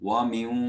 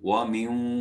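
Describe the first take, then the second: Both takes have the same delivery.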